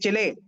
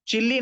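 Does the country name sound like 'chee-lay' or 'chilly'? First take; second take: chee-lay; chilly. First: It is said with an ending like chee-lay. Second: It is said like the word chilly. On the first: The speaker calls it right. "चिले बोलते हैं उसको" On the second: The speaker calls it wrong. "चिल्ली नहीं रे"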